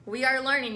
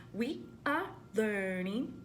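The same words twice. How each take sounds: First: Said in the usual way. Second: Slow, softer call-and-response echo; echo it back. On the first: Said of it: "you ready?". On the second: Shown as a demonstration. Teacher asks the class to echo: slow echo. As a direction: repeat after me, slowly.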